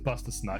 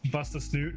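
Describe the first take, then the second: First: The last word has the short u vowel. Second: The last word has the long oo vowel. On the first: This is how people read the spelling. The speaker calls it wrong. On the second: This is the name's actual pronunciation. The speaker calls it right.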